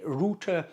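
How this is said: The word is said in a British pronunciation. "In the U K, we call it router"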